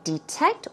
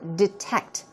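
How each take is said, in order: First: The first vowel is a long E sound. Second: The first vowel is a short, reduced sound.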